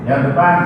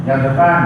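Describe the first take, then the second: Both takes have the same delivery.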